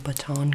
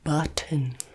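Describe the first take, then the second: First: The word sounds like 'baton'. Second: The word sounds like 'button'. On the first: The speaker calls it wrong. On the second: The speaker calls it right.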